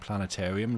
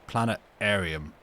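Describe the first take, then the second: First: The T sound is clearly pronounced. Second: The T sound is left out. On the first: "couldn't say the T in planetarium" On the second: "so pronounce it planetarium every time"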